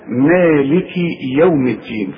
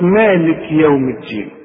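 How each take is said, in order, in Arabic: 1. تتبع الكاف كسرة قصيرة i. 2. الكاف صامتة ولا تتبعها أي حركة. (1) "إنما إذا وصل اكسر الكاف" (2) "يغلطوا فيها ويسكنها"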